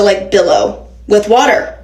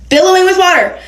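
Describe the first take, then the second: First: Said in the usual way. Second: BILLOWING said high and emphatic; emphatic repeat. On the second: Shown as a demonstration. Vlogger stressing the flood to viewers, emphatic.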